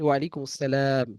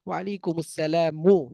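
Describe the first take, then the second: First: The last word ends on a bare consonant. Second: The last word ends with a final vowel.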